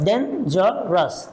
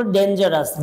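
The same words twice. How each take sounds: First: ডেঞ্জারাস split as ডেন, জা, রাস; ডেঞ্জারাস with a gap after each syllable. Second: Said in the usual way. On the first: Shown as a demonstration. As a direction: break ডেঞ্জারাস into three separate beats. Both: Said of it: "তিনটা syllable আছে".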